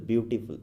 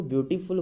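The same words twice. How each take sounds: First: Said in the usual way. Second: beautiful in three separate beats, view, टी, फुल; split into syllables. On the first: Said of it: "beautiful बोलना है". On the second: Shown as a demonstration. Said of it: "दो या तीन syllable आते हैं". (Beautiful को टुकड़ों में बोलें, ब्यू-टी-फुल)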